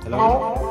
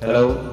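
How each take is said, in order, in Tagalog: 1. Na-process ang boses, mataas at pito. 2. Natural ang boses, hindi na-process. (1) "nagiging chipmunks yung ating boses" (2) "Back to normal voice na"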